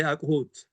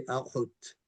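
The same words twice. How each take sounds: First: ኣቑሑት with a hard ቁ; wrong pronunciation. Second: ኣቑሑት with the soft throaty ቑ; correct pronunciation. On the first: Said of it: "Speakers don't say". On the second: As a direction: say ኣቑሑት the native way. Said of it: "They say". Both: Shown as a demonstration.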